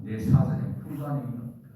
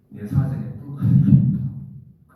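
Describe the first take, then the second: First: Said in the usual way. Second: Put-on "내 사전에 불가능이 없다" drawn out slow and loud in a Gyeongsang accent; loud, slow Gyeongsang boast; Gyeongsang dialect. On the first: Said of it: "나폴레옹 말처럼". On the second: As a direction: bellow it like a brash Gyeongsang man. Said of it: "경상도 말로".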